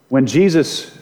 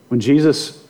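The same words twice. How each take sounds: The two takes are said the same way.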